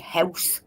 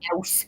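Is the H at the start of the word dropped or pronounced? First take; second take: pronounced; dropped. First: The word starts with a clear H sound. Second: The word starts without any H sound. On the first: This is how the speaker's own local accent says it. The speaker calls it right. "I can say house" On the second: This imitates how people from another town say it. The speaker calls it wrong. "they only say O U S E"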